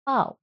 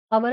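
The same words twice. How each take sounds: First: "power" as pow, silent r; correct pronunciation. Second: "Power" as pa-ver, r sounded; two clear syllables in "Power", final r pronounced; incorrect pronunciation. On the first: Teacher corrects the word for students, "power" as pow. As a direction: glide "power" into one short syllable. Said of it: "It is". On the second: Teacher shows the mistake, "Power" as pa-ver. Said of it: "Power is not correct pronunciation". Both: Shown as a demonstration.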